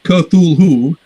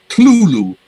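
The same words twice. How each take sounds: First: The word is said in more than two syllables. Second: The word is said in two syllables. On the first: The speaker calls it wrong. "It's not Cthulhu" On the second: The speaker calls it right. "two syllables"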